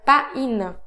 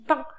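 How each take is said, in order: First: It is said the Spanish way, letters sounded separately. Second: It is said the French way, one nasal vowel. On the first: "Si vous le dites en espagnol" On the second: "le mot pain en français, on dit pain. Alors pourquoi c'est le son un?"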